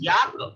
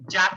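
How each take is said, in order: First: The word begins with a 'y' sound. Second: The word begins with a 'j' sound. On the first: The speaker calls it right. "It's a yak" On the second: The speaker calls it wrong. "it's not like this"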